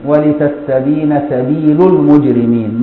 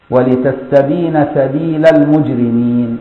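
First: Slow recitation, "سبيل" ending in a u vowel; slow Quranic recitation of "سبيل" with damma; Quran reading with damma. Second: Slow recitation, "سبيل" with an open a vowel; slow Quranic recitation of "سبيل" with fatha; Quran reading with fatha. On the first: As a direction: recite "المجرمين" slowly with the damma reading, "سبيلُ". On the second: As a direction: recite "المجرمين" slowly with the fatha reading, "سبيلَ". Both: Shown as a demonstration. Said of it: "مرة بالفتح ومرة بالضم".

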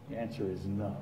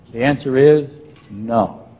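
First: Much softer, lower repeat; quiet echo. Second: Slow, weighted no; deliberate, emphatic answer; firm answer. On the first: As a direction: let it fall to a hush. Quiet repeat of his answer. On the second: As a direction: land it slowly and firmly. Preacher answers his own question. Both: Real, not acted.

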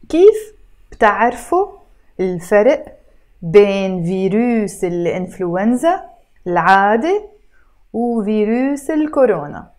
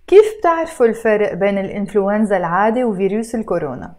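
First: Word by word with pauses between; read slower. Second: Rattled off at natural fast speed; read fast. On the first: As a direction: break the question into separate careful words. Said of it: "now I'm gonna try to read it slower". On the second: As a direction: run the whole question together quickly. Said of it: "you notice I read it fast". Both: Shown as a demonstration.

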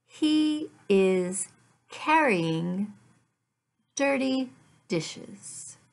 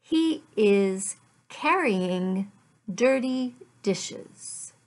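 Both takes have the same delivery.

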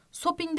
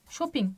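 First: Shopping with a plain s instead of sh; wrong pronunciation shopping. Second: Shopping with a clear sh sound; correct pronunciation Shopping. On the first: Teacher shows students the wrong shopping. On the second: Teacher models the correct Shopping for students. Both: Shown as a demonstration. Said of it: "Shopping demiyoruz".

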